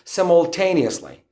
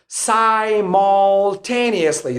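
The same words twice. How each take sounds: First: It is said in a British accent. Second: It is said in an American accent. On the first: "You can pronounce it using the British pronunciation" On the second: "This is the American pronunciation"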